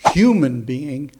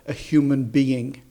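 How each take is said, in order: First: The stress is on human. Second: The stress is on being.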